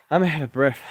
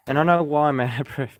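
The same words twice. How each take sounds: First: A little winded, talking between breaths; slightly puffed, catching breath as you speak. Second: A short laugh breaking into the words. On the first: Vlogger admits to viewers he is winded, breathless. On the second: Amused at himself, explaining to viewers, with a laugh. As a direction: chuckle through it, amused at yourself. Laughs at his own breathlessness. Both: Real, not acted.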